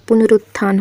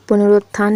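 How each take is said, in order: First: पुनरुत्थान said pu-na-RUT-thaan, with a short u; पुनरुत्थान as "punaruttthaan", no O sound; correct form. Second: पुनरुत्थान said pun-ROT-thaan, with an o; पुनरुत्थान misread as "punarotthaan"; wrong form. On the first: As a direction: put a short U after the R in पुनरुत्थान. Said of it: "होता है". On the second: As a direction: put an O after the R in पुनरुत्थान. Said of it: "नहीं होता". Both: Shown as a demonstration.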